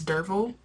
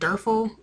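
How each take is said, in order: First: The middle consonant sounds like a v. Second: The middle consonant sounds like an f. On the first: The speaker calls it right. "but it's Dervil" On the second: The speaker calls it wrong. "I was pronouncing it Derfel while reading"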